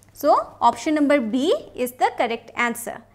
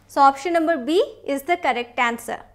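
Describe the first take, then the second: No difference in how they are said.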